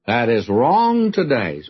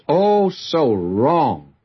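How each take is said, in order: First: Said in the usual way. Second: Slow, drawn-out "so wrong" with weight on "wrong"; stress on wrong. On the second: Shown as a demonstration. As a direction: lean hard into "so wrong", stretched.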